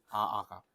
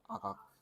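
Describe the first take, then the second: First: The word is said slowly and drawn out. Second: The word is said quickly and clipped.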